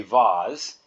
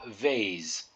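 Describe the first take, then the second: First: Vase with an open ah, like vahz; vase said the way to copy; right vase. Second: Vase with a long ay, English style; vase said the way to avoid; vase rhymed with face; wrong vase. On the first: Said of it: "So you would say vase". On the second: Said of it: "you would pronounce it vase and not vase". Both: Shown as a demonstration.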